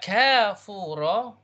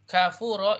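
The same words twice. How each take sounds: First: The first vowel is held long. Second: The first vowel is held short. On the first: A spring in paradise. "you extend it to harakat" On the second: A person who is ungrateful, a disbeliever. "If one harakat kafuro"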